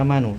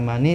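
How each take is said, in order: First: The word ends with an added u vowel. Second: The word ends with an added i vowel. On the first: "tidak bisa manu" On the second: "tidak bisa mani"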